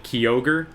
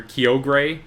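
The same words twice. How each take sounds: First: Kyogre said as "kee-OH-ger"; weird Kyogre pronunciation. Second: Kyogre said as "kee-OH-gray"; weird Kyogre pronunciation. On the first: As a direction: end Kyogre on "ger", as in "tiger". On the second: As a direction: end Kyogre on a clear "gray". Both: Shown as a demonstration. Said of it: "some weird pronunciations for Kyogre".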